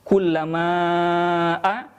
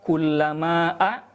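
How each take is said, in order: First: The long vowel is held for four counts. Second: The long vowel is held for two counts. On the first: "boleh membaca empat harokat" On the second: "boleh membaca dua harokat"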